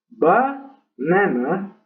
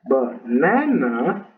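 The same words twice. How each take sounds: First: The stress is on the first syllable. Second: The stress is on the second syllable. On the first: The speaker calls it wrong. "ese acento en la primera sílaba de banana" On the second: The speaker calls it right. "La segunda, que sí es correcto"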